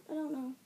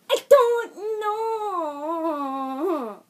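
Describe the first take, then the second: First: Said in the usual way. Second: Long, high wail of confusion; comic yell. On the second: Pretend. Vlogger stumped on camera, drawn-out mock yell. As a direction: yell it out very slowly, sliding down. Clowning after saying he yells.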